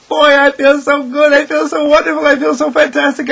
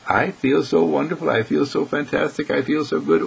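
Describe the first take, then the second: First: Much higher and louder, bursting with delight; exuberant joy. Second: Said in the usual way. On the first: Pretend. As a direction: gush like you're on top of the world. Voicing someone on top of world.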